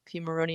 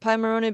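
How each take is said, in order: First: The first syllable sounds like pee. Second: The first syllable sounds like pie. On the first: "even though a lot of people call it Pimoroni" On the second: "I had been calling it Pimoroni because of Raspberry Pi"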